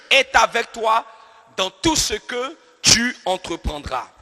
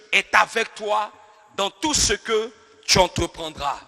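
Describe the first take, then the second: Both takes have the same delivery.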